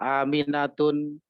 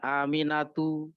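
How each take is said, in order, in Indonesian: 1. Nama ini diakhiri dengan bunyi n tambahan. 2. Nama ini diakhiri vokal, tanpa n. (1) "tidak boleh dibaca" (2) "nama-nama yang memang tidak bertanwin jangan pernah dibaca dengan tanwin"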